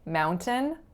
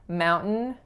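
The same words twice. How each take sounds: First: The middle T is clearly released. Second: The middle T is not audibly released. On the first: This is the Canadian way of saying it. "in Canada, relatively, they're released a lot more" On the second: This is the American way of saying it. "In the States, the T's are released much, much less frequently"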